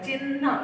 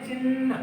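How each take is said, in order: First: चिन्ह with a light ह and a held न at the end; careful चिन्ह. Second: चिन्ह with a light ह and न at the end; careful चिन्ह. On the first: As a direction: enunciate चिन्ह. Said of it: "ऐसा हम बोलते हैं". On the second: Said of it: "हम ऐसा प्रोनाउंस करते हैं". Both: Shown as a demonstration.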